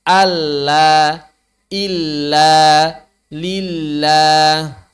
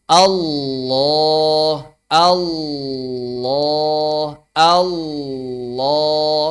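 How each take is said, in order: First: Light, thin lam in "illa" and "lillah". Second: "Allah" with a heavy, thick lam. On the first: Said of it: "Yang tipis". (lam tipis pada "lillah") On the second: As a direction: round the L in "Allah" full and dark. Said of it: "Sama saja". ("Allah" dengan lam tebal) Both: Shown as a demonstration.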